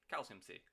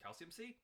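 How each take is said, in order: First: Said in the usual way. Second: Calcium C? rising like a question; questioning rise. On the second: Real, not acted. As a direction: ask "calcium C?" unsure, rising.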